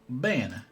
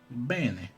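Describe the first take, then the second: The two takes are said the same way.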